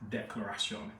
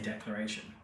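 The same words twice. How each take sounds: First: It is said with a French accent. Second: It is said with an English accent. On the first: The speaker calls it right. "I probably should say this in a French accent" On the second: The speaker calls it wrong. "I just want to say declaration"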